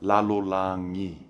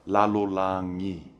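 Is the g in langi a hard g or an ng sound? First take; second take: ng sound; ng sound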